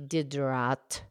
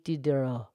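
First: The final T is pronounced. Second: The final T is silent. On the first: "Diderot has a T" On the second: "But the French pronunciation"

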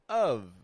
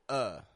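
First: It ends with a light v sound. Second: It is a quick schwa with no final consonant. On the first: The next word begins with a vowel sound. "We pronounce the V on there" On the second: The next word begins with a consonant sound. "we drop the F off of the ending and we only pronounce uh"

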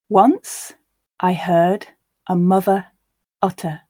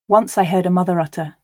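First: The line is read at a slow pace. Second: The line is read at a natural pace. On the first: "once slowly for you to grasp the words" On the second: "and then once at a more natural pace"

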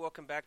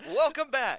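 First: It is said in a flat, low-energy voice. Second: It is said in a lively, high-energy voice. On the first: The speaker calls it wrong. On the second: The speaker calls it right.

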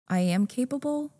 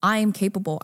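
First: It sounds unsure, like a question. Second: It sounds firm and energetic. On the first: The speaker does not really believe it. The speaker calls it wrong. "you're trying to tell yourself that, but you're questioning it" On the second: The speaker truly believes it. The speaker calls it right. "no, say it again. Like"

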